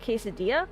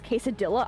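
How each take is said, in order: First: It has a partly Spanish-sounding pronunciation. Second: It has a fully English-sounding pronunciation. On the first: The speaker calls it right. "that's a bit better" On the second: The speaker calls it wrong. "I hate when people pronounce it as quesadilla"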